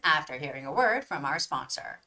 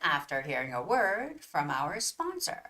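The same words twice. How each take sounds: First: The words are read at a fast pace. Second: The words are read at a slow pace. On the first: "And here goes the faster one" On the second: "So that was a slower one"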